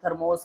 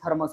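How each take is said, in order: First: The second syllable has a clear 'o' vowel. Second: The second syllable has a short 'a' vowel. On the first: "थर्मोस की जगह पर" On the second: "तो ये हिंदी की tone आ जाती है"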